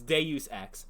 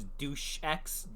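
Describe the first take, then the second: First: The first word sounds like 'day-oos'. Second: The first word sounds like 'douche'. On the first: The speaker calls it right. "No, it's Deus Ex" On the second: The speaker calls it wrong. "I thought it was Douche X"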